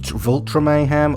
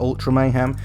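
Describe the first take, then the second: First: The first word begins with a V sound. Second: The first word begins with a vowel sound.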